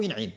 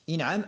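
First: انعم said "in'im", with an i after the ain; kasra on the ain. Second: انعم said "in'am", with an a after the ain; fatha on the ain. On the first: Teacher shows students the alternative imperative form, انعم as "in'im". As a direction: say انعم as in'im, middle vowel i. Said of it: "أو انعم". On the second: Teacher shows students the first imperative form, انعم as "in'am". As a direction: say انعم as in'am, middle vowel a. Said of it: "لأن الأمر يتبع المضارع". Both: Shown as a demonstration.

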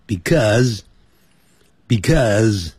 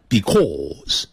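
First: "because" with an unrounded American "uh" vowel; 美式发音. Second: "because" with a long rounded "aw"; 英式发音. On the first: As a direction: say "because" slowly as "bi-KUHZ". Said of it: "这样念就好了". (把because念成美式“bi-KUZ”) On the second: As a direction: round and stretch it: "because" as "bi-KAWZ". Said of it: "不要念成because". (把because拉长念成英式“bi-KAWZ”) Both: Shown as a demonstration.

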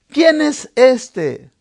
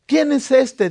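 First: Drawn out, every word weighed; slow it right down and lean on quién; asking ¿Quién es este? slowly, stressing quién; slow, emphatic question. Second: Said in the usual way. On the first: Shown as a demonstration.

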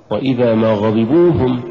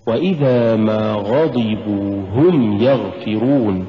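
First: "غضبوا هم" split with a stressed "غضبوا"; wrong recitation. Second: Slow melodic "وإذا ما غضبوا هم يغفرون"; correct recitation. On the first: Teacher demonstrating the mistaken pause to students. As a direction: show the wrong break before "هم". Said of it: "ولا تقل". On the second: Teacher chanting the correct reading to students. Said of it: "قل". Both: Shown as a demonstration.

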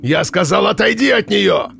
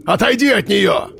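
First: High booming barked order. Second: High booming order; commanding shout. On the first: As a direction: snap the repeated command. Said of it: "рявкнул дядя Митя". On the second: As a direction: order him away. Armed man orders. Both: A narrator's reading.

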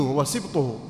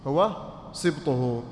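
First: Said in the usual way. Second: Drawn out and emphatic; slow emphasis. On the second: Shown as a demonstration. Teacher stressing the term سبطه slowly for students.

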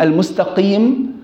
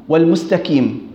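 First: "المستقيم" with a back q; careful qaf in "المستقيم"; correct qaf. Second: "والمستقيم" with k instead of q; wrong kaf. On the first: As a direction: say "المستقيم" as al-mustaqiim. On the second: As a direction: say "والمستقيم" as wal-mustakiim. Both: Shown as a demonstration. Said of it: "في فرق بين".

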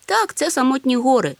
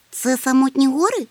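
First: Firm statement, high "Так", then falling; confirming. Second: High, loud question on "Це самотні гори". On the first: Snufkin confirms the place, firm falling "це самотні гори". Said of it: "ствердив Нюхмумрик". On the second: Chmykh asks where they are, high questioning "Це самотні гори". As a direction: ask "Це самотні гори" in a raised, wondering voice. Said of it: "запитав Чмих". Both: A narrator's reading.

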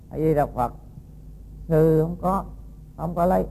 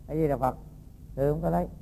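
First: Said in the usual way. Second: Much softer, calm and humble; soft patient denial. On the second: Acted. The monk quietly repeats his denial to the angry woman, softly. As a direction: murmur the prayer meekly.

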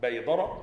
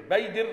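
First: بيدر as baydara, open "a" after dal; past-tense form. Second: بيدر as baydir, "i" after the dal; kasra on dal. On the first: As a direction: end بيدر in "dara", pitched lower. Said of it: "ففعل الأمر منه بيدر". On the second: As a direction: end بيدر in "dir", pitched higher. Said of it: "بكسر الدال". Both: Shown as a demonstration.

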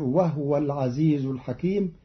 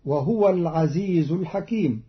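First: وهو as "wahwa", no vowel on the h; Qalun reading. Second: Said in the usual way. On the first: Shown as a demonstration. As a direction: close وهو on a silent ha. (وهو بإسكان الهاء) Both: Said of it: "بإسكان الهاء".

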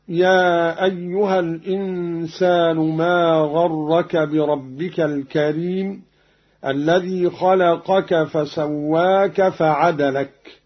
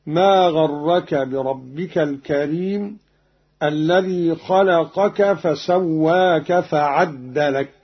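First: Slow recitation with فعدلك read "fa-'adalak"; single dal. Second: Slow recitation with فعدلك read "fa-'addalak"; doubled dal. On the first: Teacher quotes the verse before Qalun's variant, single dal. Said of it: "بتشديد الدال من فعدلك". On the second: Teacher shows Qalun's reading, doubled dal. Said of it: "بتشديد الدال من فعدلك هكذا". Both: Shown as a demonstration.

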